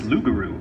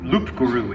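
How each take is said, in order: First: It sounds like 'lugaroo', with no p. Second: It sounds like 'loop guru', with a p. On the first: The speaker calls it right. "it's Lugaroo" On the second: The speaker calls it wrong. "it's not Lu, Loop Guru"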